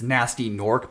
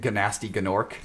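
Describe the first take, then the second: First: The initial G is silent in both words. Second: A G sound begins both words.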